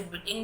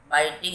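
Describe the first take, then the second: First: बिटिंग with a short "इ", the common mistake; wrong pronunciation. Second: बाइटिंग with a long "आइ" sound, like bite; correct pronunciation. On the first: (बिटिंग, छोटी "इ" वाली गलत आवाज़) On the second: (बाइटिंग में "आइ" की लंबी आवाज़) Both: Shown as a demonstration. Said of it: "इसे बिटिंग नहीं बोलेंगे बच्चों".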